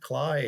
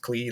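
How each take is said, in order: First: The vowel does not sound like 'key'. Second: The vowel sounds like 'key'. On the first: The speaker calls it wrong. "I've always told my friends" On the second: The speaker calls it right. "no, it's Clee, like, like key"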